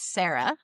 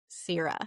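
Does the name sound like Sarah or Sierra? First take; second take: Sarah; Sierra. First: The name is said like Sarah. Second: The name is said like Sierra. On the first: This is how the audiobook says the name. "you might think that this character's name is Sarah" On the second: This is how the book's pronunciation guide gives the name. "it is written S E E R A, Sierra"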